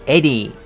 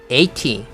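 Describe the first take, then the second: First: The t sound is softened and nearly dropped. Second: The t sound is fully and clearly pronounced. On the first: "대부분 t를 죽이죠. 그래서 eighty 정도로 읽습니다" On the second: "t를 살려가지고 읽을 수도 있지만"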